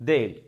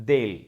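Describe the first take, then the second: No difference in how they are said.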